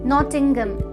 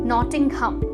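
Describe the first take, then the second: First: The h is silent and the last syllable light. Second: The h is sounded and the last syllable stressed. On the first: The speaker calls it right. "Sound है वो silent होता है" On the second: The speaker calls it wrong. "एच A M पे हम एक stress देते हैं"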